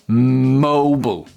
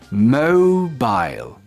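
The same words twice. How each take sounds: First: It is said in an American English accent. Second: It is said in a British English accent. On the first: "In American English" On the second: "in British English called a mobile"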